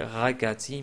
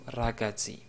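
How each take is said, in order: First: The r is made in the throat. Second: The r is rolled with the tongue tip. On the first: The speaker calls it wrong. "on n'a pas dit ragazzi" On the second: The speaker calls it right. "c'est le R roulé de l'italien"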